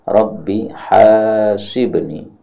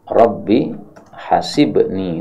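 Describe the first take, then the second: First: The first vowel of hasibni is long. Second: The first vowel of hasibni is short. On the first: The speaker calls it right. "Mestinya haknya panjang" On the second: The speaker calls it wrong. "ini salah ya"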